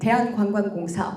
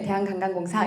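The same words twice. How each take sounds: First: The syllables keep the wa diphthong. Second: The syllables use a plain a vowel.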